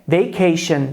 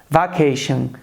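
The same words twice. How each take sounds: First: The first vowel is not an open Portuguese 'a'. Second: The first vowel is an open Portuguese 'a'. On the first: The speaker calls it right. "a pronúncia correta é vacation" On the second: The speaker calls it wrong. "eles pensam talvez em vaca e reproduzem algo como vacation"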